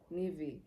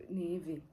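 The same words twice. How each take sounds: The two takes are said the same way.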